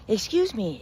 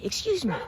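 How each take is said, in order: First: Higher pleading call to get attention; pleading scorpion. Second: Much higher, more desperate repeat of "excuse me"; pleading scorpion. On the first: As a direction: call out politely, a little higher. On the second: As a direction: pitch it way up the second time, begging. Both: Acted. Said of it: "calls out to him".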